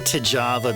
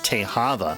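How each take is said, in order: First: The middle consonant is a J sound. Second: The middle consonant is an H sound. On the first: It follows the everyday American pronunciation. "I say Tejava because I mean I'm just a American" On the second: It follows the original native pronunciation. "if you pronounce it in the Mojave way"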